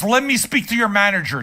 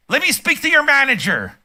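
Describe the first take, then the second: First: Said in the usual way. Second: Mock Karen, pitched much higher and demanding; entitled soccer mom. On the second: Mocking soccer moms who yell at clerks, high entitled Karen voice. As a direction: sneer it out like an entitled customer cornering a clerk. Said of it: "soccer moms".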